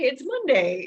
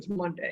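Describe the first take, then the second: First: It is said in a relaxed, upbeat way. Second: It is said in a heavy, dreading way. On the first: The week's start feels fine. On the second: The week's start feels like a burden.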